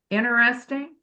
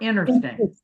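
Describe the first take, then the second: First: The word is said slowly and fully. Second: The word is said fast and shortened. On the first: "If you're speaking slowly" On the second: "Or if you're speaking fast"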